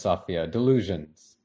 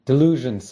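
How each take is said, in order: First: Said in the usual way. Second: Forceful, raised delusions; loud dismissal. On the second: A narrator's reading. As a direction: Delusions thrown out loud and high. Husband rejects wife's hope.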